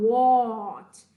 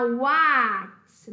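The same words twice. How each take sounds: First: "what" said with an open O sound, not A; spoken what. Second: Said in the usual way. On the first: Shown as a demonstration. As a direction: say "what" as wót. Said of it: "mas eu falo what". ("what" pronunciado com som de ó) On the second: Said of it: "eu escrevo com A".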